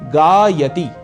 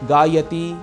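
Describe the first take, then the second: First: The syllable before ti is held; ti is short. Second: The syllable before ti is rushed; ti is long. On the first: The speaker calls it right. "मैं ती से पहले वाले अक्षर पर थोड़ा अधिक समय लगा रहा हूं" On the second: The speaker calls it wrong. "ती दीर्घ हो जाएगा"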